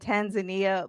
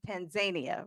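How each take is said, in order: First: The name is said the familiar Western way. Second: The name is said the local African way. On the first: "we are used to saying Tanzania" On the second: "the way they say it in Africa"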